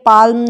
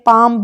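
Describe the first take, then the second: First: An l is heard before the m. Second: No l is heard at all. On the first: The speaker calls it wrong. "पाल्म नहीं पढ़ते" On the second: The speaker calls it right. "पाम पढ़ते हैं हम इसको"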